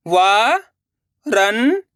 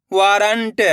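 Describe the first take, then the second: First: वारंट drawn out slowly syllable by syllable. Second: Said in the usual way. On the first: Shown as a demonstration. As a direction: spell out वारंट. (वारंट को अक्षर-अक्षर बोलना) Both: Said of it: "अब आगे देखिए".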